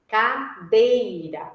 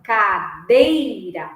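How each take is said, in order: First: "Cadeira" drawn out slowly, syllable by syllable; slow spoken syllables. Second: "cadeira" slow, with the DEI syllable leaned on; stress on DEI. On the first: Teacher to students, finding the strong syllable, slowly. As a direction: stretch out "Cadeira" slowly to find the beat. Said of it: "o pulso forte tá em qual acento". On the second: Teacher to students showing the accent, stressed DEI. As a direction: land the beat on DEI in "cadeira". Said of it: "o acento ficaria no D". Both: Shown as a demonstration.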